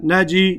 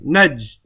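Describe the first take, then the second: First: The word ends with an added i vowel. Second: The word stops on the final consonant j. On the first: The letter carries a kasra. The speaker calls it wrong. "I don't say" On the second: The letter carries a sukoon, with no vowel. The speaker calls it right. "I just stop on the jim for a second"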